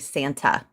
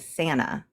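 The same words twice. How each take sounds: First: The t in the middle is clearly pronounced. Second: The t in the middle is dropped. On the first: "I don't say Santa" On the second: "We say Santa. We don't pronounce the T in things"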